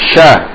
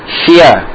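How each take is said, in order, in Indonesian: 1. Suku katanya langsung menuju vokal. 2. Suku katanya meluncur melalui bunyi tambahan di antaranya. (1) "Tapi langsung" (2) "Jangan sampai membacanya dengan seperti ini misalnya, salah"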